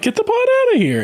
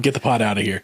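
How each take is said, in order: First: It imitates the actor's distinctive delivery. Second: It is said in a plain, ordinary way.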